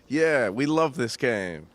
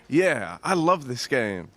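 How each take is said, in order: First: It is said with little enthusiasm. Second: It is said with more enthusiasm.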